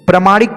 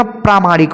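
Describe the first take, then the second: First: प्रामाणिक with short "pra"; mispronounced प्रामाणिक. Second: प्रामाणिक with long "praa"; corrected प्रामाणिक. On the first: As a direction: open प्रामाणिक on a quick "pra". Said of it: "की जगह". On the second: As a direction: open प्रामाणिक on a drawn "praa". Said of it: "प्रामाणिक होता है". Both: Shown as a demonstration.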